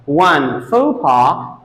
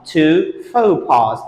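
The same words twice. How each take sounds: First: FAUX PAS said foh-PAH, slowly; no final sound on faux pas; singular pronunciation. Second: FAUX PAS said slowly as foh-PAHZ; plural pronunciation. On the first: Teacher contrasts one with two, singular pronunciation. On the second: Teacher contrasts two with one, plural pronunciation. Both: Shown as a demonstration. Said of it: "but different pronunciation".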